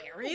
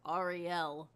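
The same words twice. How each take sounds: First: The name is said in a plain American way. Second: The name is said with a non-American accent. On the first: This is how another character says the name. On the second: This is how one character says the name. "Sebastian calls her Ariel"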